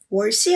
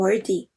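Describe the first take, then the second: First: The middle consonant sounds like an s. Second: The middle consonant sounds like a soft th. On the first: The speaker calls it wrong. "월시 아니래요" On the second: The speaker calls it right. "worthy가 좀 더 맞는 발음이라고 하시더라고요"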